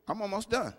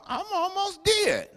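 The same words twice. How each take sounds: First: Said in the usual way. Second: High, slow, drawn-out joking moan; mock dying wail. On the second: Preacher joking about his long sermon, high and slow. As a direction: stretch it up high like he's about to expire. Joking slip before correcting himself.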